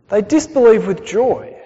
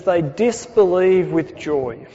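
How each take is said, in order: First: "disbelieve" stressed, falling, the phrase said louder; emphatic repeat. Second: Said in the usual way. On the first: Shown as a demonstration. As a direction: lean hard into "disbelieve" and let it fall. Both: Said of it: "I really like that phrase".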